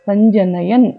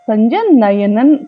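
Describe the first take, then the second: First: The word ends in '-yan'. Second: The word ends in '-yanan'. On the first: The speaker calls it right. "సంజనయన్ అంతేగాని" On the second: The speaker calls it wrong. "సంజనయనన్ కాదు"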